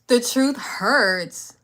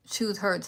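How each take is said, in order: First: Very slow teasing whisper; drawn-out taunting whisper at a viewer. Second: Said in the usual way. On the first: Shown as a demonstration. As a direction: breathe it out slowly.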